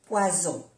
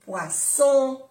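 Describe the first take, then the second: First: "poison" with a voiced z, falling; Z sound. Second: "Poisson" high and loud, with an unvoiced s; double S. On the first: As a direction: say French "poison" with a buzzing z. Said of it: "se pronuncia como una Z". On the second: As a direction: punch "Poisson" with a hissed s. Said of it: "Las dos S". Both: Shown as a demonstration.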